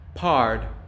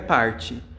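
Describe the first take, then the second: First: The final t is barely released, no vowel. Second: An extra vowel sound follows the final t. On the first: The speaker calls it right. "Esse T quase não sai" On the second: The speaker calls it wrong. "não é parte"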